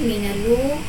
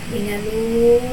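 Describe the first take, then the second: First: The long vowel is held for two counts. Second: The long vowel is held for six counts.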